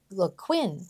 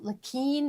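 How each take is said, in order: First: The name is said with an English pronunciation. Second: The name is said with a French pronunciation. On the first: This is how most people say the name. "everybody pronounces it Le, Le Quin" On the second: This is how the name is supposed to be said. "because of all my years of French"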